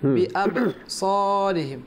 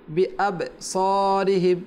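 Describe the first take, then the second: Both takes have the same delivery.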